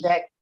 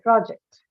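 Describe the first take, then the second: First: The stress is on the second syllable. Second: The stress is on the first syllable. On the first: It is used as a verb. "The stress has to be on the second syllable when used as a verb" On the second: It is used as a noun. "if it is a noun, then you say project"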